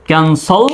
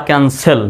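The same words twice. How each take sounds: First: ক্যান্সল with a rounded o in the last syllable; "kan-sol" for ক্যান্সল; accepted o variant. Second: ক্যান্সেল with an e in the last syllable; "kan-sel" for ক্যান্সেল; accepted e variant. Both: Shown as a demonstration. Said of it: "দুটো উচ্চারণই সঠিক".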